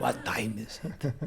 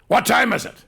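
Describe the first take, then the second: First: Slow mocking echo in a heavy Russian accent; Russian-accented coach mimicking the actor; teacher's heavy accent. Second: Loud, high, impatient snap at her; angry demand. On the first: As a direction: parrot his line back to show how it sounded. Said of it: "obviously had a very heavy accent". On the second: Retold or imitated. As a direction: demand the time like a jealous partner. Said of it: "And he goes".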